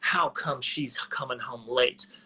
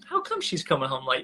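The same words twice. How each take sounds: First: The tone sounds sharp and accusing. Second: The tone sounds soft and curious. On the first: The speaker suspects wrongdoing. The speaker calls it wrong. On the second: The speaker genuinely wonders about the reason. The speaker calls it right.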